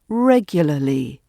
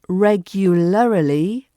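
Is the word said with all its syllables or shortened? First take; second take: shortened; full. First: A middle vowel is dropped, making an L R cluster. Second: Every syllable is pronounced in full.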